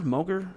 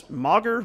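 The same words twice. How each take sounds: First: Moger with long o, like "moh-ger"; pronounced MOH-ger. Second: Moger with short open o, like "mogger"; pronounced MOGGER. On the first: Player testing a second reading, Moger as "moh-ger". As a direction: say the first part of Moger like "mow". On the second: Player trying out a name, Moger as "mogger". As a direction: say Moger to rhyme with logger. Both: Shown as a demonstration. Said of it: "I like Moger".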